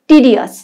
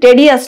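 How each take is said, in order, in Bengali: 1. প্রথম স্বরধ্বনিটি 'ee'-এর মতো শোনায়। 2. প্রথম স্বরধ্বনিটি 'eh'-এর মতো শোনায়। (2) "উচ্চারণটা কিন্তু টেডিয়াস নয়"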